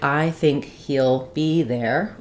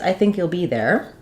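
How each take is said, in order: First: Each word gets about the same length. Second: Key words are longer; small words are short and linked. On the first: The speaker calls it wrong. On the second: The speaker calls it right.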